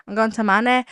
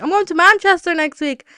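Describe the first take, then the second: First: Put-on playful go at a Manchester accent. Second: Said in the usual way. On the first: Podcaster trying out an accent before a trip, mock Manchester accent. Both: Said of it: "practice my Manchester accent".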